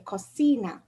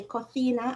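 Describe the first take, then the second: First: "cocina" as "ko-SEE-na"; S sound for C. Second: "cocina" as "ko-THEE-na", tongue between teeth; Spanish th for C. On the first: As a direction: say the second c of "cocina" as a plain s. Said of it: "and some they'll say". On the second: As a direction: say the second c of "cocina" as th. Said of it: "in some regions". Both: Shown as a demonstration.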